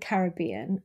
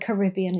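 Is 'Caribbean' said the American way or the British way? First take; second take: British; American. First: It is said the British way. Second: It is said the American way.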